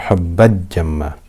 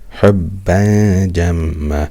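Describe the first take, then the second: First: The n is merged completely into the j. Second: The n is hidden with a light nasal hum. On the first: The speaker calls it wrong. "I'm not merging the tanween into the jim" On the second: The speaker calls it right. "I'm hiding the tanween with ghunna for two harakat"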